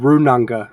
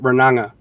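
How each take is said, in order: First: The name is said with Māori-style sounds. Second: The name is said with English-style sounds. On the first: The speaker calls it right. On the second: The speaker calls it wrong.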